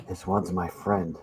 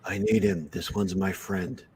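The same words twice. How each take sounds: First: Muffled through hands over face. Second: Gruff helmeted bounty hunter; terse, gravelly Mandalorian line; Mando impression. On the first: Shown as a demonstration. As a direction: Mando line muffled behind hands. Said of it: "I put my hands over my face". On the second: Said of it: "That's my Mando impression".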